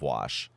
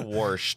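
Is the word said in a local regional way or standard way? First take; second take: standard; regional. First: The word is said in the usual standard way. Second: The word is said in a local regional way. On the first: This is how people elsewhere say it. "instead of wash" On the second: This is how people in that town say it. "they say wash, too"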